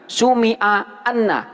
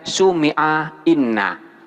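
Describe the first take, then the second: First: The particle begins with an 'a' vowel. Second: The particle begins with an 'i' vowel. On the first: The speaker calls it right. "wajib dibaca anna" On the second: The speaker calls it wrong. "nggak boleh dibaca sumi'a inna"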